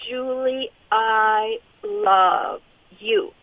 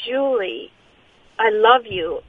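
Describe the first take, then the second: First: Tender voice. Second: Said in the usual way. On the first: Retold or imitated. The voice telling her in the night, slow and tender. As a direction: let each word linger like a gentle embrace. Quoting the voice she heard.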